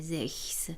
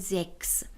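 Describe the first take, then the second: First: The consonant before the s is a kh sound. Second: The consonant before the s is a k sound. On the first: The speaker calls it wrong. "اینجا صدای خ نمیده" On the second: The speaker calls it right. "خود سه ها آوای ک رو تولید میکنه"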